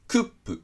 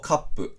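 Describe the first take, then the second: First: The vowel sounds like 'oo'. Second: The vowel sounds like 'ah'. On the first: The speaker calls it wrong. "とは言わないですからね" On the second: The speaker calls it right. "ローマ字読みしないでちゃんと英語のルールを適用"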